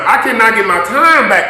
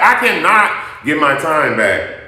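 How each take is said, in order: First: Raised, hard insistence; louder indignant. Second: Slow and heavy on "I"; slower emphatic repeat. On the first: Angry vlogger tells viewers her time is lost. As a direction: press the point loud. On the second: Angry vlogger repeats her point slowly. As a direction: land it slowly. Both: Real, not acted. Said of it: "repeated complaint".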